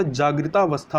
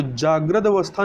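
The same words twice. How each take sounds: First: जागृतावस्था with long aa after t; correct compound. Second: जागृत अवस्था with short a joining the words; wrong form. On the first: Teacher corrects for learners, जागृतावस्था with long "taa". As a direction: say जागृतावस्था as one word, "jagrita-avastha". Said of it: "जागृतावस्था होता है". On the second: Teacher rejects it, जागृत अवस्था without a long middle vowel. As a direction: say जागृत अवस्था as "jagrad-avastha". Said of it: "जागृत अवस्था नहीं होता". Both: Shown as a demonstration.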